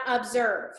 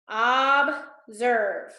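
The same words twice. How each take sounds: First: Said in the usual way. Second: Observe split into two drawn-out syllables; deliberate syllable count of observe. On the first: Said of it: "It's got five, too many". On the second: Shown as a demonstration. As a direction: say observe slowly, pausing between its two syllables. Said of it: "count how many syllables".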